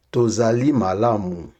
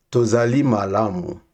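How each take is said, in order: Both takes have the same delivery.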